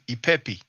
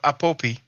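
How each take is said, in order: First: The vowels are pronounced with i and e sounds. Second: The vowels are pronounced with a and o sounds. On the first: This follows the transliteration. "is actually E according to the transliteration" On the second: This is the usual way people say it. "what we pronounce like a A sound"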